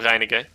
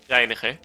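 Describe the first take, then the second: First: The name is pronounced with English sounds. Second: The name is pronounced with Dutch sounds.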